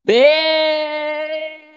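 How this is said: It is said in a happy tone.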